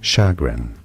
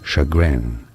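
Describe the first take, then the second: First: The stress is on the first syllable. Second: The stress is on the second syllable. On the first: This is the British English pronunciation. "chagrin in British English" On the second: This is the American English pronunciation. "chagrin in American English"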